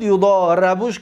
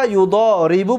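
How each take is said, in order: First: یضاربوش said "yu-doo-ra-bush"; long "doo", then "ra" in یضاربوش; passive-voice vowels. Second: یضاربو said "yu-doo-ri-bu"; long "doo", then "ri" in یضاربو; active-voice vowels. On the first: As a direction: give یضاربوش an "a" after the r. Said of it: "ری که کسره کی بود فتحش دادیم". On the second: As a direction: give یضاربو an "i" after the r. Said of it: "یضاربوش کیم". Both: Shown as a demonstration.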